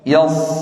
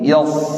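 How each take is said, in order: No difference in how they are said.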